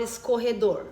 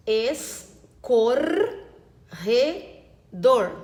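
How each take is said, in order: First: Said in the usual way. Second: "Escorredor" very slowly, a clear pause after each syllable. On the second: Shown as a demonstration. Teacher checking syllable division, "Escorredor" syllable by syllable. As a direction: chop "Escorredor" into es, cor, re, dor. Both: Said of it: "conferir agora a separação das sílabas".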